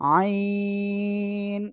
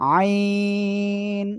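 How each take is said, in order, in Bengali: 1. স্বরটি দীর্ঘ, গলা চেপে। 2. স্বরটি দীর্ঘ, গলা চেপে।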